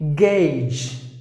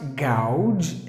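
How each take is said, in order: First: The vowel is an 'ay' sound. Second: The vowel is not an 'ay' sound. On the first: The speaker calls it right. "the A U should be pronounced like A" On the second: The speaker calls it wrong. "The next word is not gouge"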